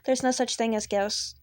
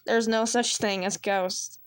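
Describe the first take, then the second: First: It is said in the listener character's voice. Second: It is said in another character's put-on voice.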